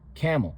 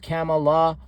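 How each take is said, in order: First: The word ends in l with no vowel. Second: The word ends with an added a vowel. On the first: The speaker calls it right. "No, it's camel" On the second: The speaker calls it wrong. "Not camel or camela or camelu"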